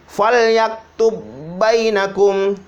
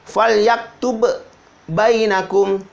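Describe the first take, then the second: First: The two b sounds merge into one doubled b. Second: The two b sounds are pronounced separately. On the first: The speaker calls it right. "Huruf yang pertama itu dileburkan, dihilangkan, masuk ke dalam huruf yang kedua" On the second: The speaker calls it wrong. "tidak dibaca"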